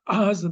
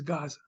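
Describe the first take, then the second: First: The name begins without a G sound. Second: The name begins with a hard G sound. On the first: This is the original Hebrew form. "What's it in Hebrew? Aza" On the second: This is the English form. "in English became a G sound"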